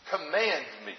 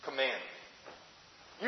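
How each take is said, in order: First: Said in the usual way. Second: "command me" slow and soft, leaning on "command"; slow, soft "command me" with a rising tune; stress on command. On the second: Shown as a demonstration. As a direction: stretch out "command" to mark it. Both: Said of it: "don't permit me, command me".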